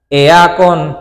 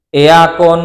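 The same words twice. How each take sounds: The two takes are said the same way.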